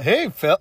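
It sounds like talking to a puppy.

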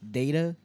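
It is said with an American pronunciation. "Big old America"

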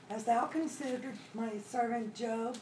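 It sounds like offering Job up to be tested.

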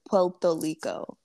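The r sounds are pronounced like l. This is how people in Puerto Rico say it. "in Puerto Rico they don't say their R's, they say L's"

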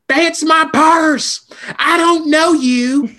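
It is said in Bobby Hill's cartoon voice.

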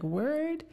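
The pitch rises at the end like a question. It asks something. "the first one's kind of like a question"

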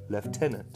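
The word is pronounced the British way. "in British they say lieutenant"

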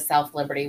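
The full name is said with every syllable. "Instead of"

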